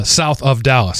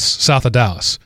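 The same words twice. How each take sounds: First: South of Dallas with "of" pronounced separately; south of Dallas, "of" kept whole; Southerner's phrasing. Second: South of Dallas run together as "southa Dallas"; south of Dallas, Southern-style slurred "of"; Southerner's pronunciation. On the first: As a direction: say "south of Dallas" with each word distinct. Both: Shown as a demonstration. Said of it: "the way a Southerner would say".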